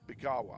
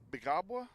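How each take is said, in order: First: The second b is left silent. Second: The second b is pronounced.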